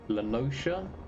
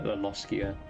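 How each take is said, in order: First: The middle consonant is a soft sh sound. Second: The middle consonant is a hard k sound. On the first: "I've heard that as well" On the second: "I'm gonna go with a hard C"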